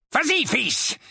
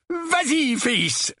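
First: High, lightly voiced urging uncle; urging father. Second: Higher, more forceful prompting; furious urging. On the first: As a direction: prompt your son to speak. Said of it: "dit l'oncle Vernon". (père qui encourage) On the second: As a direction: urge your son on, seething. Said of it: "répéta l'oncle Vernon, la moustache frémissante de fureur". (encouragement frémissant de fureur) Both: A narrator's reading.

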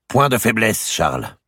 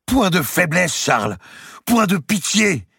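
First: Raised, firm queenly command; hard voice. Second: Very high, loud enraged exclamation; furious outburst. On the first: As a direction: order him sternly, settling on the name. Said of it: "la voix dure d'Isabelle d'Angleterre". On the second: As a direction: hurl it back in fury. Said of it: "un sursaut de fureur". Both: A narrator's reading.

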